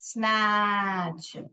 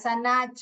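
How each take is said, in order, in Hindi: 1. s और n एक साथ ब्लेंड होते हैं। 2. एक स्वर s और n को अलग करता है। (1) "दो साथ में आते तो सॉफ्टली बेंड करने का" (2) "ऐसे नहीं पढ़ने का"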